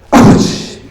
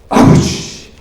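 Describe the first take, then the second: No difference in how they are said.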